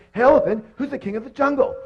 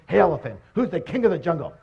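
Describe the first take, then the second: First: High, loud mock demand; acted outrage, pitched way up; indignant lion. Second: Said in the usual way. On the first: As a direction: call out sharply as an ignored jungle king. Ignored lion asks again, more forcefully.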